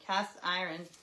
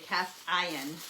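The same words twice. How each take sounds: First: The R in iron is pronounced. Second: A UK accent, the R is dropped.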